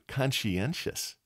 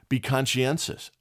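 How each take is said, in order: First: Conscientious stretched slow and softer; drawn out slowly. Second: Said in the usual way. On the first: Shown as a demonstration. Host repeating the advice to listeners, slow and soft. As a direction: linger on each syllable of conscientious.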